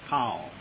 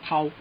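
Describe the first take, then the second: First: The pitch climbs up and then falls. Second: The pitch stays level without a rise.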